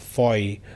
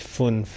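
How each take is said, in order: First: It is said with a Swiss German pronunciation. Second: It is said with a Standard German pronunciation. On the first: "the Swiss don't say it fünf, they say it as" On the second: "in German you said the number is"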